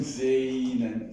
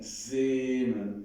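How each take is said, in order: First: Sehnen with a drawn-out e-i glide; wrong, with I glide. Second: Sehnen on one long pure e; pure e, without I. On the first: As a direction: slide the e of sehnen into i. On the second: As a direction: keep the e in Sehnen free of any i. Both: Shown as a demonstration. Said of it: "With, without I".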